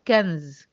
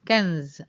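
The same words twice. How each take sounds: Both takes have the same delivery.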